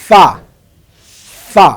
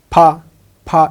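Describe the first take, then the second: First: ফা said correctly. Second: ফা with lips pressed together like a p; ফা said incorrectly; wrong ফা. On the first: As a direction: say ফা teeth on lip, not lips closed. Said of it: "উপরের দুই দাঁত নিচের ঠোঁটের মাঝখানে লাগবে". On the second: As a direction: say ফা the common wrong way, lips closed. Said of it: "ভুল হবে". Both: Shown as a demonstration.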